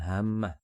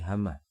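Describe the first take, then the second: First: The m sound is doubled and held long. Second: The m sound is single and short. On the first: The speaker calls it wrong. "bukan hammah" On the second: The speaker calls it right. "tapi hamah, tidak ada tasdidnya mimnya"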